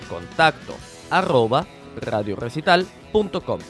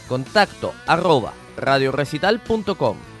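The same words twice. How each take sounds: First: It is said more slowly. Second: It is said very fast.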